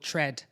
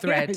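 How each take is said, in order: First: The word begins with a plain T sound. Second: The word begins with a TH sound.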